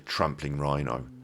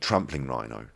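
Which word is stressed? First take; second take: rhino; trampling. First: The stress falls on the second word. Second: The stress falls on the first word. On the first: "the rhino is the bit that I put the" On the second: "they put the emphasis on the first word"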